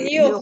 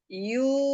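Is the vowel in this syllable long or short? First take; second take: short; long. First: The vowel is cut short with a breathy stop. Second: The vowel is held long and drawn out. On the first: The speaker calls it wrong. "Bukan yuh" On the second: The speaker calls it right. "Yu panjang"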